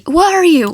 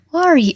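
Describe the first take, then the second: First: Louder, desperate demand; almost shout it in desperation; desperate near-shout. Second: Said in the usual way. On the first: A narrator's reading. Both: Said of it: "almost shouted the question desperately".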